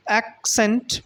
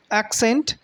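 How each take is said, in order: First: ACCENT in two separate beats, ac, cent; split into syllables. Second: Accent said as one word, acCENT; stress on second syllable. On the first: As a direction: break "accent" apart between ac and cent. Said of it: "there are two syllables". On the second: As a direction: lean on the CENT of "accent", lifting it. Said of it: "putting stress on the word scent". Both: Shown as a demonstration.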